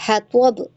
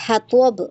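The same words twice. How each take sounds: No difference in how they are said.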